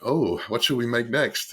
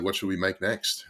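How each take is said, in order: First: Slow, higher, louder retold pondering; drawn-out musing. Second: Lightly imitating an eager school kid; a hint of childlike eagerness; excited school kid. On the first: Replying to an eager partner, slow musing aloud. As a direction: draw out the "oh" and muse aloud. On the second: Partner asking what to make next, mildly imitated excitement. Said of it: "excited school kid".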